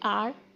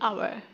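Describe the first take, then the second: First: It is reduced to one short syllable. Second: It is said fully with two syllables. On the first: "soft form में बोलेंगे" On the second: "strong form में बोलेंगे"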